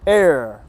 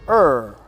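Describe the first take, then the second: First: The vowel sounds like the word 'air'. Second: The vowel sounds like the hesitation 'er'. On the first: "dual pronunciation, air or er" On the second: "dual pronunciation, air or er"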